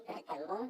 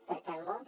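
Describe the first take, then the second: The two takes are said the same way.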